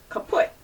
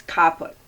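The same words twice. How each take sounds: First: "kaput" with a weak first syllable, stress on PUT; stress on second syllable. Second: "caput" with emphasis on CA; stress on first syllable. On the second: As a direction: say "caput" as KAH-put, first syllable strong. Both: Shown as a demonstration. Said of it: "Emphasis on the first syllable".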